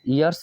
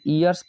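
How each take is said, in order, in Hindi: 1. यह शब्द य ध्वनि से शुरू होता है। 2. यह शब्द सादी स्वर ध्वनि से शुरू होता है। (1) "या तो इसे ईयर्स आप पढ़ सकते हैं" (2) "इसे ईयर्स प्रोनाउंसिएशन में नहीं लेते हैं साथियों"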